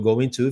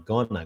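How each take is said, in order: First: Both words are said in full. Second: The words are reduced and blended together. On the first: "o going to vira gonna" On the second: "vira gonna"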